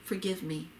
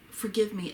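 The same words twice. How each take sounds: First: Begging. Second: First plea, a little louder and higher; begging. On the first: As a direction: let the second forgive me drop away. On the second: Zachariah first begging Elizabeth for forgiveness, louder plea. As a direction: open the plea with a touch more push. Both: Acted. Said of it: "he begged".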